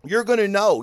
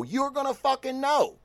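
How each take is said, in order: First: Said in the usual way. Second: Pitched up, emphatic; higher insistent repeat. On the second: Real, not acted. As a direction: push it higher the second time. Repeated with more force.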